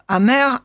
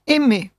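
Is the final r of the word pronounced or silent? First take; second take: pronounced; silent. First: The word ends with a pronounced r sound. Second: The word ends in a vowel, r silent. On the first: The speaker calls it wrong. "je le prononce exprès mal" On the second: The speaker calls it right. "car il faudrait dire « d'un autre aimé »"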